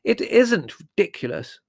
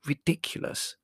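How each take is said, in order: First: High, loud, indignant denial; slow, emphatic angry retort. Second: Breathy, disgusted hiss; whispery scorn. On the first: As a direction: contradict hotly, punching each word. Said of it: "said Margot angrily". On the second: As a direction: hiss it with contempt, higher than usual. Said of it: "hissed Prue". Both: A narrator's reading.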